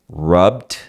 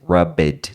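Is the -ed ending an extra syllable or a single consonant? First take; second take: single consonant; extra syllable. First: The ending is a single consonant, almost T. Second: The ending is said as an extra syllable. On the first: The speaker calls it right. "Você entra no B e já sai no D" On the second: The speaker calls it wrong. "o seu cérebro quer te enganar e dizer rubbed"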